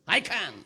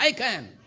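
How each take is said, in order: First: Said in the usual way. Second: Louder on request; a bit louder I can. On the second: Shown as a demonstration. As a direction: call it out for the crowd. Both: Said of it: "சத்தமா சொல்லுங்க".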